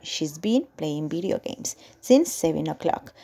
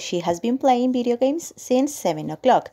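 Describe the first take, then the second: First: She and has are merged into one short syllable. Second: She and has are said as two full words. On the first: "pueden decir directamente she's, que sería la contracción" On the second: "en vez de decir el she has"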